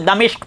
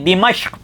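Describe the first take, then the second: First: The first syllable has a, the second i. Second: The first syllable has i, the second a. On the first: This is the form most people use. "जमहूर ने जो है जो है वो दमिश्क पढ़ा है" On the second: This is the correct form of the word. "इसके पहले हुर्फ पर ज़ेर और दूसरे हुर्फ पर ज़बर पढ़ी जाती"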